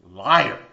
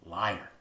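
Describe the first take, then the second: First: Liar. thrown out loud and sharp; shouted accusation. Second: Said in the usual way. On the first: Acted. Preacher denouncing the serpent's lie, a loud shout.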